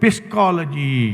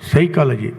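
First: The word begins with a p sound. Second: The word begins with an s sound. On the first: The speaker calls it wrong. "ಹೇಗೆ ಬರೆದಿದ್ದೀವಿ ಅದೇ ಥರ ಉಚ್ಚಾರಣೆ ಮಾಡಬೇಕಂದ್ರೆ" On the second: The speaker calls it right. "ಪಿ ಏನಾಯಿತು? Silent"

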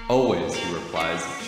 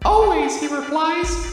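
First: It is read in a plain, possibly sultry way. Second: It is read in a deliberately unsexy way.

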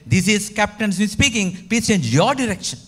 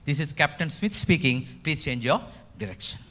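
First: It is said loudly, with a raised voice. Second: It is said at normal volume.

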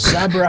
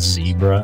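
First: Zebra is said with a non-American pronunciation. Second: Zebra is said with the American pronunciation. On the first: The speaker calls it right. "no, it's zebra" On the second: The speaker calls it wrong. "They say aluminum and zebra and stuff"

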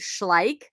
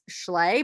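First: The word ends on a consonant sound. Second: The word ends on a vowel sound. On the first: The speaker calls it right. "but it's actually Schleich" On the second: The speaker calls it wrong. "I always thought this was pronounced Schley"

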